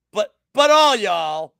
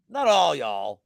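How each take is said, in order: First: Slow, loud Southern "all y'all" with the vowels stretched; Southern drawl. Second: Said in the usual way. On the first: Shown as a demonstration. Betting show host mocking the crowd in a Southern drawl. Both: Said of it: "so I can do the Southern drawl".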